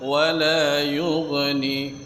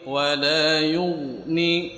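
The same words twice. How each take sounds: First: The gh sound has an echoing bounce. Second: The gh sound is plain, without a bounce. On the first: The speaker calls it wrong. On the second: The speaker calls it right.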